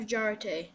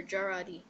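First: "Jarate" ending in "tay"; one pronunciation variant. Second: "Jarate" ending in "dee"; alternative pronunciation. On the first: Player unsure of the item's name, "Jarate" ending in "tay". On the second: Player offering another option, "Jarate" ending in "dee". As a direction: say "Jarate" as jar-AH-dee, softer. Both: Shown as a demonstration. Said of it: "How do you pronounce it?".

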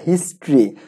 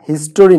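First: হিস্ট্রি with no middle vowel; two-syllable "his-tri". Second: হিস্টোরি with a full middle "to"; mispronounced "his-to-ri". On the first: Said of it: "আমরা এই উচ্চারণটা ভুল করি". (হিস্ট্রি, "টো" ছাড়া দুই সিলেবলে) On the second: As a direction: say হিস্টোরি in three syllables, his-to-ri. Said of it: "হিস্টোরি না". (হিস্টোরি, মাঝে স্পষ্ট "টো" দিয়ে) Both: Shown as a demonstration.

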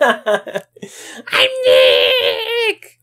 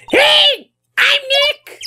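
First: Low, laughing through the name; laughing retry. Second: High shouted call at the device; loud for the mic. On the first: Trying the device again, laughing low. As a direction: say it again while cracking up. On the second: Shouting to the voice-recognition camera, high and loud. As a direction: call it out high so the machine hears. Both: Shown as a demonstration. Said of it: "Maybe I'm not saying it loud enough".

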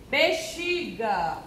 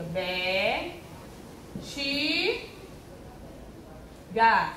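First: Said in the usual way. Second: "Be, chi, ga" as three isolated syllables. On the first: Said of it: "vamos separar o nome". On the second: Shown as a demonstration. Teacher separating bexiga into boxes, syllable by syllable. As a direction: hold "Be" and "chi", pausing before "ga". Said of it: "Que a tia [name] já ensinou".

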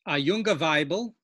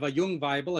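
First: "junge" said with a full final -e, two syllables; "A junge Weibel" with the -e ending clearly voiced. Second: "jung" clipped to one syllable, no final -e; "a jung Weibel" with the bare, endingless "jung"; jung without ending. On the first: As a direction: sound the ending: "junge", not "jung". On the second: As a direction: drop the ending: "jung", not "junge". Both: Shown as a demonstration. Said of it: "instead of a jung Weibel".

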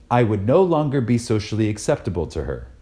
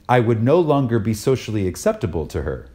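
Both takes have the same delivery.

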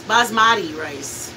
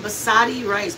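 First: "basmati" said slowly as bahz-MAH-tee; careful pronunciation. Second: Said in the usual way. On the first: Shown as a demonstration. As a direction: spell out "basmati" syllable by syllable.

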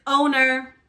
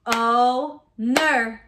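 First: Said in the usual way. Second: "Owner" split as o, ner with a gap; chopped into syllables. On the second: Shown as a demonstration. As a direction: chop "Owner" into two slow beats. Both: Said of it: "chop it out".

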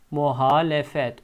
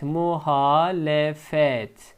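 First: Said in the usual way. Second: Slow syllable by syllable; careful slow "Muhalefet"; slow model reading. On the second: Shown as a demonstration. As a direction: spell it out slowly for the class. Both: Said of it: "Diğer kelimemiz muhalefet".

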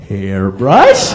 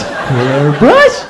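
First: Low, slow puzzled repeat; mock clueless customer; dumb questioning. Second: Baffled repeat with a laugh; puzzled and amused by the word; mock clueless customer; dumb questioning. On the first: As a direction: sound baffled by the word. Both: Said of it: "here I'm going".

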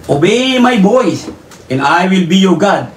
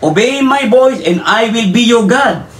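First: Slow, deliberate reading of obey my voice; measured preacher reading of obey my voice; slow scripture reading. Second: "Obey my voice" pitched higher and slow, leaning on "voice"; pressing the verse home, slow and raised; emphatic repeat. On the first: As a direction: read "obey my voice" slowly and evenly. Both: Shown as a demonstration. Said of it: "Hindi niyo mabuti ha?".

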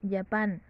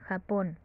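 First: Japón said as English Japan, opening with a j sound; English pronunciation. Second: Said in the usual way. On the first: Shown as a demonstration. Teacher giving the English country name Japan, English pronunciation.

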